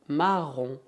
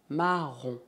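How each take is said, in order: No difference in how they are said.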